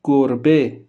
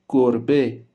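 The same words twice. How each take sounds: The two takes are said the same way.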